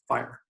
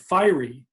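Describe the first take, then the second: First: The word is said as one syllable. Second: The word is split into two syllables. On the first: The speaker calls it right. "just one sound" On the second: The speaker calls it wrong. "that would be two syllables"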